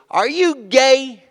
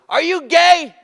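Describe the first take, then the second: First: Slow, high, drawn-out taunting question; heckler. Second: High, loud jeering shout; heckler shout. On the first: Audience member heckling the comic, slow high taunt. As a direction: drag out the jeer like a heckler. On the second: Heckler in Fort McMurray yelling at [name], high and loud. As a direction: yell it from the back. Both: Retold or imitated.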